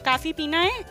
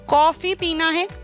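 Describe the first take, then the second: First: The first vowel is a long open 'aa'. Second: The first vowel is a rounded open 'aw'. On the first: It sounds like the word for enough. The speaker calls it wrong. "कई लोग इस तरह से भी उच्चारण करते हैं" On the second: It names the drink. The speaker calls it right. "कॉफी होता है"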